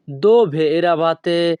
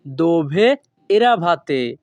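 First: Dove eravate stretched out slowly and clearly; slow it right down for learners; careful slow classroom demo; slow teaching pace. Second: Said in the usual way. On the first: Shown as a demonstration. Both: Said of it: "দুই থেকে তিনবার বলার চেষ্টা করব".

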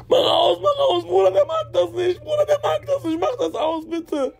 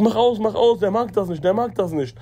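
First: Very high-pitched, frantic wailing yell; retold hysterical screaming. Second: Higher-pitched, urgent repeated plea; retold agitated plea. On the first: Panicked friend screaming at the narrator to stop the Koran, hysterical. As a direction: imitate a friend screeching in panic, begging. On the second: Scared friend begging the narrator to stop the Koran, urgent. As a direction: imitate a panicked friend, held back. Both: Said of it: "der hat mich so angeschrien".

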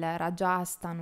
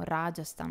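First: "Rajasthan" with the stress toward the end; unsure first go at "Rajasthan", late stress; first pronunciation attempt. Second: "Rajasthan" with the stress on the first syllable; unsure second go at "Rajasthan", early stress; alternative pronunciation. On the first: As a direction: try "Rajasthan" as Ra-ja-STHAN. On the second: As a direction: try "Rajasthan" as RA-ja-sthan. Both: Shown as a demonstration. Non so come si pronuncia.

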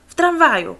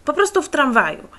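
First: Loud, curt, high snap; sharp loud impatient answer; rude retort. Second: Loud, high, curt repeat; insist, fed up with the questions; impatient loud insistence; rude retort. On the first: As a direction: snap it back rudely to get rid of her. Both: A narrator's reading. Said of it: "odparł niezbyt grzecznie".

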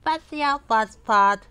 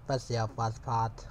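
First: High, loud mocking call; name-calling taunt. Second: Low, soft throwaway nickname; quiet aside. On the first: People calling Mister Fussy names, high taunting. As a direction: taunt him with a nickname. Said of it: "people used to call him". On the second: A narrator's reading. Narrator repeats the nickname to herself, quiet aside. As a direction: drop it in under your breath.

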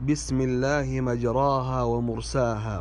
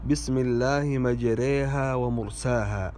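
First: "مجراها" as majraha, open aa; full alif. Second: "مجريها" as majreha, long e; tilted alif. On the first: Teacher shows a common mistake, "مجراها" said majraha. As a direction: say "مجراها" with a plain long a. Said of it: "وهذا خطأ". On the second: Teacher gives the correct reading, "مجريها" said majreha. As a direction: say "مجريها" with the a bent towards e. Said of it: "والصحيح". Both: Shown as a demonstration.

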